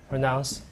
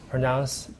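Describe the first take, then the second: Both takes have the same delivery.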